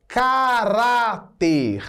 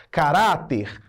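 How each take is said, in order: First: "caráter" stretched out syllable by syllable; very slow, deliberate "caráter". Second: Said in the usual way. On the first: Shown as a demonstration. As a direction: draw out each syllable of "caráter" for the class. Teacher spells out key word.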